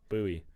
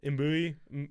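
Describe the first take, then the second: First: The name begins without any M sound. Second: The name begins with an M sound. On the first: The speaker calls it right. "It's a silent M. So you go" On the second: The speaker calls it wrong. "No M"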